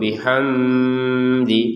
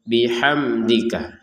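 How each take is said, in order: First: The m sound has a long nasal hum. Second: The m sound is crisp and clear. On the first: The speaker calls it wrong. "atau dibaca dengan dengung" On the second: The speaker calls it right. "Huruf mim sukun di sini kita baca dengan jelas"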